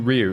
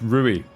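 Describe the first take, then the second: First: The name is said as one syllable, ryoo. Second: The name is said as two syllables, roo-ee. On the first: The speaker calls it wrong. "Sorry, I'm calling you Ryu" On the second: The speaker calls it right. "It's Rui. My mistake"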